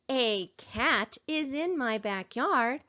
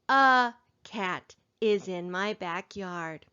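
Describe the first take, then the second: First: The word 'a' has a full 'ay' vowel. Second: The word 'a' has a reduced 'uh' vowel. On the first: The speaker calls it wrong. "instead of saying" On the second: The speaker calls it right. "We code it with a schwa. Remember, it is better to read like we talk"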